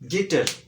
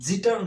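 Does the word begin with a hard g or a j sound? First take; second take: hard g; j sound. First: The word begins with a hard g sound. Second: The word begins with a j sound. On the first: The speaker calls it right. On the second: The speaker calls it wrong. "জুই জিটার নয়"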